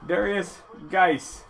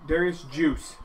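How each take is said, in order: First: The surname is pronounced the ordinary way. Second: The surname is pronounced in an odd way.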